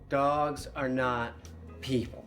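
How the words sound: It is said firmly, with conviction.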